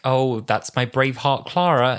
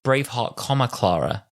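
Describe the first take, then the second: First: 'Braveheart Clara' run together as one name; slow line treating 'Braveheart Clara' as a single name; missing the comma. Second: 'Braveheart', break, 'comma, Clara'; spelled-out comma. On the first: Retold or imitated. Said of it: "No, no, no. Braveheart, comma, Clara". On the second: Shown as a demonstration. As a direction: separate 'Braveheart' from 'Clara' with a spoken comma. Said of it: "there's a comma there".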